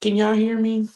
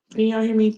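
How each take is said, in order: First: Higher, louder check-in call; host calling out to viewers after phone call, louder. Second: Higher, louder check-in call; host repeating her check to live viewers, higher and louder. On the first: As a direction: call out to see if anyone hears. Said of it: "Please tell me y'all can hear me". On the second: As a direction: call out again, asking for a reply. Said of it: "Please tell me yes in the comments". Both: Real, not acted.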